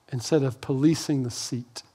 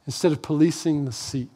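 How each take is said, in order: Both takes have the same delivery.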